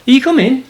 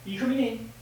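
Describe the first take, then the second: First: High, louder sing-out; calling a pet. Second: Soft, high invitation; coaxing pet talk. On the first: To Filippo who hasn't moved, calling him in. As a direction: call the pet over in a high, raised voice. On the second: To Filippo at the door, soft coaxing. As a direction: coax a pet in gently, high and quiet. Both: Real, not acted.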